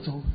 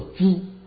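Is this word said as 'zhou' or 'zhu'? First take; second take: zhou; zhu. First: The word is said zhou, the standard Mandarin way. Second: The word is said zhu, in a Jiangxi accent. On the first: "不叫粥" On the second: "在我们江西不叫粥，叫猪"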